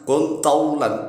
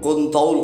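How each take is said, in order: First: It is read through fully, keeping the ending. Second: It stops early, dropping the word's ending. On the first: It asks to become long. The speaker calls it right. "Padahal seharusnya dibaca kuntaulan" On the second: It comes out as an unintended, different word. The speaker calls it wrong. "Contoh kita baca berhenti"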